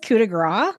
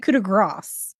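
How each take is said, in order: First: The final s sound of grace is left silent. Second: The final s sound of grace is pronounced. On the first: The speaker calls it wrong. "you don't say this... I always thought it was coup de grace" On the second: The speaker calls it right. "You do do this, but it's a ah instead of an ah"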